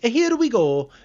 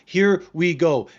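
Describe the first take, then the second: First: It is said in a Mario impression voice. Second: It is said in his normal voice.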